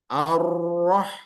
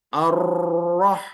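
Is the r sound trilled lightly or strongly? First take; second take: strongly; strongly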